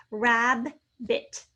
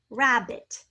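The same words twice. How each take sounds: First: Rabbit split as "rab", pause, "bit"; syllable by syllable. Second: Said in the usual way. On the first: Shown as a demonstration. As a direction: sound out rabbit in two separate beats. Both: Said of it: "We hear the rab".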